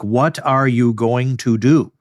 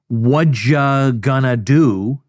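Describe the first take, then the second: First: Each word is clearly and fully articulated. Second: The words are run together and reduced. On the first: This is the textbook form. "what you studied in your book" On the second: This is how people really speak. "does not sound like what you studied in your book"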